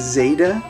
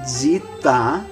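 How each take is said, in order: First: It is said the English way, without ee. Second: It starts with dz and an ee vowel. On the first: "we say zeta, with like Z E T A" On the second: "So it's zita"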